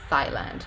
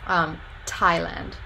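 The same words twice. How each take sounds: First: It begins with a hissing 'th' sound as in 'thin'. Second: It begins with a tongue-ridge 't' and a puff of air. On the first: "he produced a voiceless dental fricative instead" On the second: "So that is an alveolar voiceless stop, and it's aspirated, so you get that little puff of air"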